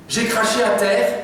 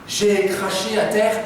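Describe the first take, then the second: No difference in how they are said.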